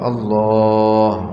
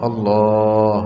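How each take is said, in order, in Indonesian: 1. Vokal setelah l kedua dipanjangkan. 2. Vokal setelah l kedua dipanjangkan.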